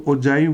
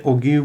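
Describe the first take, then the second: First: ओजाइव with a j sound and long i as in "five"; ओजाइव, the g softened to j; soft-g pronunciation. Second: ओगीव with a hard g and long ee; ओगीव, g as in "go", ending in "eev"; hard-g pronunciation. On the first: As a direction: say ओजाइव as "o-JAI-v". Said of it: "अगर मेरी pronunciation ठीक है". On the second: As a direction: say ओगीव as "o-GEEV". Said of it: "कुछ teachers को मैंने ओगीव बोलते". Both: Shown as a demonstration.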